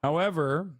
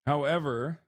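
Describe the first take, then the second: No difference in how they are said.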